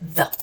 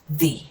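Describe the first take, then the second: First: It is a quick 'thuh' with a short vowel. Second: It ends in a long 'ee' sound. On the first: "the normal pronunciation for the word the is like this" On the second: "before a vowel, we would pronounce it as the. Okay, so we will put the sound E at the end of it"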